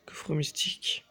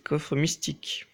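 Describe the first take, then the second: First: Softly repeated "Coffre mystique", half whispered; hushed echo. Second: Said in the usual way. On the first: Real, not acted. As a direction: say it under your breath, lingering. Repeats chest name more softly. (à mi-voix, presque chuchoté)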